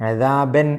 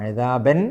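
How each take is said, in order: Both takes have the same delivery.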